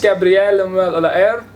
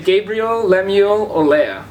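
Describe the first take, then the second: First: The name is said with its original pronunciation. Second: The name is said with an Australian pronunciation. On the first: This is the name's own pronunciation. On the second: This is how people in Australia say it.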